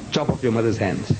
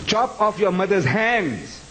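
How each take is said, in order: First: Said in the usual way. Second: "Chop off your mother's hands" slow and pitched up; emphatic acted command. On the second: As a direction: repeat "Chop off your mother's hands" as a drawn-out, raised order. Father's order repeated with emphasis.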